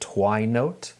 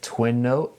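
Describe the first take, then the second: First: The first vowel is long, like in 'wine'. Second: The first vowel is short, like in 'win'. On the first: "I heard somebody call it Twine Note" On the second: "I've been calling it Twin Note"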